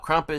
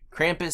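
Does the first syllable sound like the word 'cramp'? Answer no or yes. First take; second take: no; yes. First: The first syllable does not sound like 'cramp'. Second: The first syllable sounds like the word 'cramp'. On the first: "sounds like a dance move that [name] would do" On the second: "sounds like something you get after you go swimming too soon after eating"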